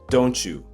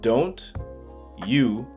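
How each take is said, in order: First: The T and Y blend into a ch sound. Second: The T and Y sounds stay separate.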